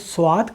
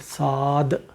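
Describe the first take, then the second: First: It is said with a w sound: swad. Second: It is said without a w sound: saad. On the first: This is the Urdu way of saying it. "Urdu में हम इसे स्वाद कहते हैं" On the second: This is the Arabic way of saying it. "यहाँ पे साद पढ़ेंगे"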